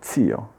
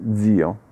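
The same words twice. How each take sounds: First: The z at the start is voiceless. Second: The z at the start is voiced. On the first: The speaker calls it right. "invece è zio" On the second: The speaker calls it wrong. "spesso la pronuncio con la zeta sonora, sbagliando però"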